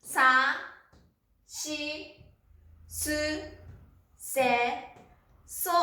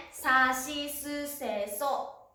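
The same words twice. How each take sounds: First: Each kana said on its own with long pauses; syllable by syllable. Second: Said in the usual way. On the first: Shown as a demonstration. Teacher modelling sa-row kana for students, slow and spaced. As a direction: sound out every syllable apart. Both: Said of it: "そうですね。".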